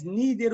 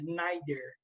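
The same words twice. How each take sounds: First: Neither with a long "ee" sound, NEE-ther; American pronunciation. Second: Neither with an "eye" sound, NYE-ther; British pronunciation. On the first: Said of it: "Americanos falam mais neither". (neither com "i" longo, como os americanos falam) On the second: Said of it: "o britânico fala mais neither". (neither com "ai", como os britânicos falam) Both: Shown as a demonstration.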